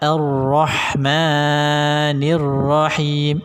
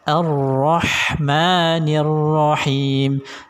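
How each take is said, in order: First: The long vowel is held far too long. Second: The long vowel is held for two beats. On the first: The speaker calls it wrong. "itu kepanjangan" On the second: The speaker calls it right. "Dua harokat saja"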